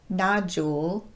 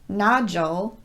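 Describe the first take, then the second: First: The vowel after the D is a long U. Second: The vowel after the D is a schwa. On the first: The speaker calls it wrong. "not nodule" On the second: The speaker calls it right. "reduced the long U sound to more of a schwa vowel"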